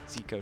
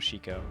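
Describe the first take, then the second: First: The name begins with a z sound. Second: The name begins with an sh sound. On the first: This is a mistaken form of the name. The speaker calls it wrong. "I love it when people call me the wrong name" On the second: This is how the player's name is pronounced. The speaker calls it right. "So clearly Shiko"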